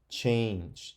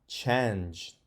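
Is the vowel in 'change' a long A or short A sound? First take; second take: long A; short A. First: The vowel is a long A, as in 'cake'. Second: The vowel is a short A, as in 'cat'. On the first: The speaker calls it right. "Maybe I should try the long A sound. that's the way you say it" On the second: The speaker calls it wrong. "But that ah, that doesn't sound right"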